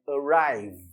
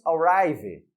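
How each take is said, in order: First: Arrive ending on a bare v, slow; correct pronunciation. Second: Arrive with an extra vowel, arri-vee; wrong pronunciation. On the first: Teacher models the correct arrive for students, slowly. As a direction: stop arrive cleanly on the v. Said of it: "é arrive". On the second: Teacher shows the common mistake, arrive with a vowel added. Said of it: "Nós não falamos arrive". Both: Shown as a demonstration.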